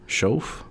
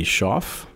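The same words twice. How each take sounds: First: "Shauf?" said with an "oh" vowel, like "showf", rising and unsure; unsure second try. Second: "Shauf" said with an open "ah" vowel, like "shoff"; "Shauf" rhymes with "off", said plainly; first try at the name. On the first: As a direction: ask "Shauf?" with a long "oh" and a questioning lift. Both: Shown as a demonstration. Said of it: "I never know how to pronounce his name".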